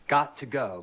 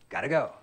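First: The words are said separately and fully. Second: The words are jammed together, reduced.

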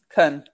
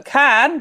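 First: The word has a weak, reduced vowel. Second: The word has a full, clear vowel.

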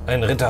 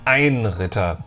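First: It is said plainly, without special emphasis. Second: It is said with strong, dramatic emphasis.

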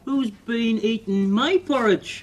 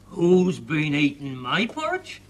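First: The voice is small and tiny. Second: The voice is big and deep. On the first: "the baby bear said in his wee tiny voice" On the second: "Daddy Bear said in his big voice"

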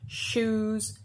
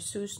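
First: The word begins with an airy sh sound. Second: The word begins with a plain s sound. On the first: The speaker calls it right. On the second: The speaker calls it wrong. "they pronounce it like an S"

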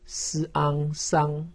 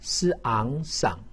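First: The pitch stays high and level. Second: The pitch dips low, then rises. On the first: "一声" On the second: "三声"

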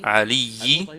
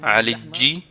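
First: The middle consonant is a y sound. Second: The middle consonant is a j sound. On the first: This is the usual form. "Il veut dire « Aliyi »" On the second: This is the old dialect form. "il a dit « Aliji »"

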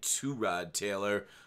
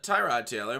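First: The first syllable sounds like 'too'. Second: The first syllable sounds like 'tie'. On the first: The speaker calls it right. "but it's, I think, Two-Rod Taylor" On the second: The speaker calls it wrong. "a lot of people call him Tyrod Taylor"

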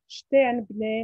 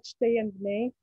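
First: The vowel is said as a steady pure e. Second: The vowel is said as a gliding diphthong. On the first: "This monophthong occurs"

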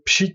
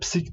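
First: The p is followed by an sh sound. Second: The p is followed by an s sound. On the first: The speaker calls it right. "Doğrusu aslında pşiktir" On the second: The speaker calls it wrong. "yazılı dile psik diye yazıyorlar"

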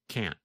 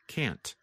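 First: The final T sound is barely heard. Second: The final T sound is clearly pronounced. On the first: "there is almost no sound of the letter N" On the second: "simply pronounce the letter T"

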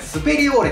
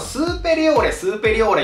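First: The first vowel is kept short. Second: The first vowel is drawn out long. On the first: The speaker calls it right. "確かにこれね、スペリオーレだと思います" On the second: The speaker calls it wrong. "僕ずっとスーペリオーレ言ってたんですけど"

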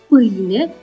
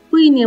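First: It is said with the standard 'îi' diphthong. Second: It is said with a regional Moldavian vowel. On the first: "se pronunță cu diftongul î" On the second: "în graiul moldovenesc pronunțăm pâine"

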